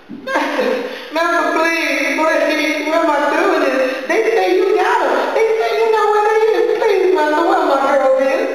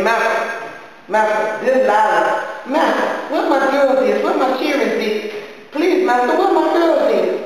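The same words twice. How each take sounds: First: Put-on mother caterwauling at the master for her girls; desperate wailing plea. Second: High, rising plea that builds; mother begging the silent master; pleading. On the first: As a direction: wail at him, begging harder each time. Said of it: "all this caterwauling". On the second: Acted. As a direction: beg the master for her daughters. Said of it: "I kept up so much noise".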